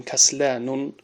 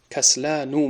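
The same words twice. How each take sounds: First: کسلانون with an added final un, shown as the mistake; wrong form with tanween. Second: کسلانو ending in a plain short u, no final n; correct Arabic form. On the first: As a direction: say کسلانون with a nunated un ending, as the error. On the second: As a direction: say کسلانو with no tanween n at the end. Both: Shown as a demonstration.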